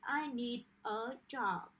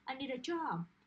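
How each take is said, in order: First: Each word is said separately and slowly. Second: The words run together smoothly and quickly. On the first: The speaker calls it wrong. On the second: The speaker calls it right. "try to say things like"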